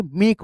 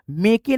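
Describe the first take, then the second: First: मेक as one syllable, silent final e; correct reading. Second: मेके as two syllables, final "e" sounded; wrong reading. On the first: Teacher models silent e for students, मेक in one syllable. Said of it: "ई आपका silent हो गया". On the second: Teacher warns against voicing silent e, मेके in two syllables. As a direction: say मेके as "may-kay". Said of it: "मेके नहीं पढ़ेंगे". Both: Shown as a demonstration.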